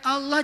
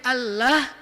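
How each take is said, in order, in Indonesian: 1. Huruf l yang double itu tebal dan gelap. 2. Huruf l yang double itu tipis dan ringan.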